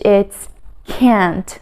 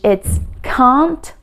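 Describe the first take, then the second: First: The word is said in an American accent. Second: The word is said in a British accent. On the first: "In American English" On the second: "In British English"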